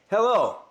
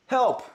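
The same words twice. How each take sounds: First: Loud hello with a strong H; loud mic test. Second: Loud help, strong H and P; loud mic test. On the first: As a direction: push air on the H of Hello. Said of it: "You heard the H in hello". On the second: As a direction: breathe the H and pop the P in Help. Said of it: "the H in hello and in help". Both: Shown as a demonstration.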